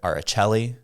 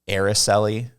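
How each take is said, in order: First: The name is said with an Italian flavor. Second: The name is said with American vowels. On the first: "kind of like an Italian twist to it" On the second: "There's nothing more American or northern than using the eh and uh"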